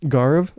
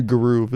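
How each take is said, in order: First: "Garv" as nearly one syllable, GARV; name as given. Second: "Garuv" in two syllables with an "oo", guh-ROOV; mangled name. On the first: Checking someone's name, "Garv" said GAR-v with questioning rise. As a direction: ask "Garv" with a long "ar" and no "oo". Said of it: "how do you pronounce your name". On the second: Renaming someone carelessly, "Garuv" said guh-ROOV. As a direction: stretch "Garuv" to rhyme with groove. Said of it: "I'm gonna call you Garuv". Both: Acted.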